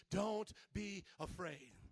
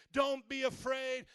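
First: Slow, soft, lower "Don't be afraid"; reassuring. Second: Loud, slow, firm "Don't be afraid"; God's command. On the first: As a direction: comfort them gently with "Don't be afraid". Gentle repeat of God's words. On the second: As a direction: proclaim "Don't be afraid" slowly and loudly. God's words quoted, then repeated softly. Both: Acted.

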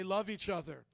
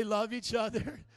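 First: Said in the usual way. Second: Loud, slow, emphatic rallying cry; like you mean it. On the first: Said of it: "Now say it like you mean it". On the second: Shown as a demonstration. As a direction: belt it out with a smile for the crowd. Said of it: "Now say it like you mean it. Smile".

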